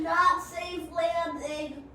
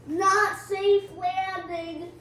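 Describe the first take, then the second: First: Very slow dry repeat; slow drawn remark. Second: Very slow, louder dry comment; slow drawn remark. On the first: Player crashing once more, slow and dry. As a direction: drag it out, weary again. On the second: Player commenting on the crash landing, slow and dry. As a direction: draw it out dryly. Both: Real, not acted.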